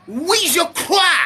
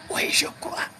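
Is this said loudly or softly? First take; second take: loudly; softly. First: It is shouted very loudly. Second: It is said softly and quietly. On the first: The speaker calls it right. "Il a crié très fort" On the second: The speaker calls it wrong. "Il n'a pas dit doucement"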